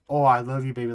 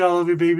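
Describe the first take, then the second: First: It sounds romantic and affectionate. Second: It sounds casual and friendly.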